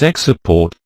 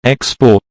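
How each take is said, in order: First: Export stressed on the second syllable, ex-PORT; verb stress. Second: Export stressed on the first syllable, EX-port; noun stress. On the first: Teacher showing the verb to sell goods abroad, second-syllable stress. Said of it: "the stress falls on the second syllable". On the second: Teacher showing the noun for goods sold abroad, first-syllable stress. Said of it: "noun has its word stress on the first syllable". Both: Shown as a demonstration.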